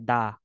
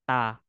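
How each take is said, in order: First: The syllable begins with a voiced D sound. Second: The syllable begins with a voiceless T sound. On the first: The stem ends in a vowel or rieul. "Kapag vowel at saka reol, da ang pronunciation niya" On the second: The stem ends in a consonant other than rieul. "Kapag consonant, ... Ta siya"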